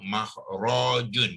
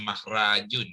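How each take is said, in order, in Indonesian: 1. Vokal setelah r terdengar dibulatkan, seperti o. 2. Vokal setelah r terdengar biasa, seperti a. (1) "makhrajun bukannya makhrajun"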